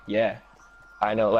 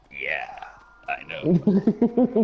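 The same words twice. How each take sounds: First: Said in the usual way. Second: Beatrice. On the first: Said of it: "Actually, that's not her voice". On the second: Retold or imitated. Storyteller corrects his impression of the woman who served him, put-on character voice. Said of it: "Her voice was, like, more like".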